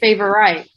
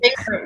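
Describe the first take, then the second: First: Every syllable of the word is fully sounded out. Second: The word is said in a shortened, reduced way. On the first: "we would say favorite" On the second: "Instead of saying favorite"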